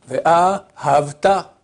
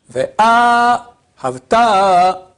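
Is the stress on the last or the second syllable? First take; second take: Second; Last. First: The stress falls on the second syllable. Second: The stress falls on the last syllable. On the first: You loved, in the past. The speaker calls it wrong. "l'accent tonique sur la deuxième syllabe" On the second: You will love. The speaker calls it right. "on met l'accent sur la première syllabe et la dernière"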